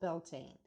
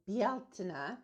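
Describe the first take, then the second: First: The name is said with an English pronunciation. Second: The name is said with a Gaelic pronunciation. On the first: This is the shared English-speaking pronunciation. "it's been anglicized" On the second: This is the pronunciation Reconstructionists use. "if you're a Reconstructionist, you're going to pronounce it Bealtaine"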